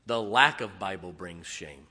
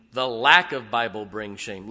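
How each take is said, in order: First: Said in the usual way. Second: Louder, lack stressed; emphatic repeat. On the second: Shown as a demonstration.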